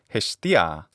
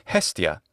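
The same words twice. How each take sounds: First: It is said with a classical Greek pronunciation. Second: It is said with an English pronunciation.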